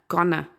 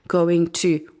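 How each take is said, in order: First: The words are blended into one reduced word. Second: Both words are said fully and separately. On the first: "In speaking, often it is" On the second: "the prepositional to"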